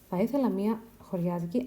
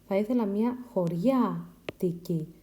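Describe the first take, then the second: First: A syllable carries stress in an unexpected place. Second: Each syllable carries stress in the expected place. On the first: The speaker calls it wrong. "I have made an error here, the stress" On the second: The speaker calls it right. "This is the correct stress"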